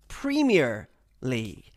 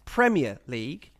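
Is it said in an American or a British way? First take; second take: American; British. First: It is said the American way, with clear emphasis. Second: It is said the British way, without clear emphasis.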